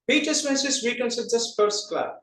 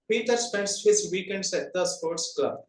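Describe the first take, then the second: First: The small words are reduced and run together. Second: Every word is fully and separately pronounced. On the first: "just observe it" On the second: "That is the general way of telling"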